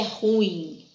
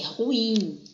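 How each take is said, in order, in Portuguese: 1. Fala-se em uma sílaba. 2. Fala-se em duas sílabas. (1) "Não é" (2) "A gente tem um hiato, a pronúncia certa da palavra"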